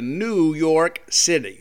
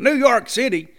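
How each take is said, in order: First: It is said in an ordinary conversational voice. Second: It is said in an exaggerated imitated voice.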